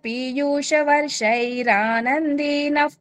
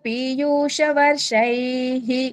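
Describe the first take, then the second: First: It runs on, the ending becoming an r sound. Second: It stops, ending on a breathy h sound. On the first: The speaker calls it right. "కలిపి చదివితే ఎలా వస్తుంది తెలుసా?" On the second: The speaker calls it wrong. "ఇక్కడ అక్కడ ఆపామా వర్షైః అని వస్తుంది"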